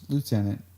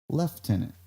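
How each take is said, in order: First: It is said without an F sound. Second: It is said with an F sound.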